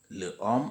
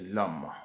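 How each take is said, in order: First: The article is said in full, unelided. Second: The article is elided onto the noun. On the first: The speaker calls it wrong. "on ne dit pas" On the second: The speaker calls it right. "mais on dit"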